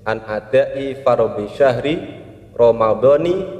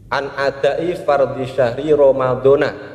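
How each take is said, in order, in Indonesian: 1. Kata terakhir berakhir dengan vokal 'i'. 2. Kata terakhir berakhir dengan vokal 'a'. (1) "yang benar niat puasa Ramadan adalah" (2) "tidak dibaca dengan kasrah tapi dibaca dengan fathah"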